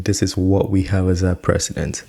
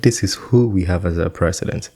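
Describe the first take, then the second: First: "what" picked out pointedly; stress on WHAT. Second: "who" picked out as the corrected word; stress on WHO. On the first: YouTuber showing what he keeps emphasizing, stress on "what". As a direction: lean hard on "what". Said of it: "he keeps emphasizing". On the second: YouTuber correcting what to who, stress on "who". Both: Shown as a demonstration.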